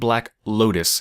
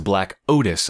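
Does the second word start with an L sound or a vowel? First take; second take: L sound; vowel. First: The second word begins with an L sound. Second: The second word begins with a vowel sound. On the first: The speaker calls it wrong. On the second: The speaker calls it right.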